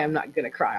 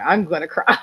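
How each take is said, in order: First: Said in the usual way. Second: Admits defeat with a wet laugh; laughing through tears. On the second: Real, not acted. Mother giving in to tears at son's memorial, laughing. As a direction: let the laugh break in on the last word.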